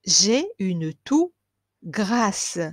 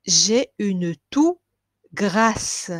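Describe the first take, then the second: No difference in how they are said.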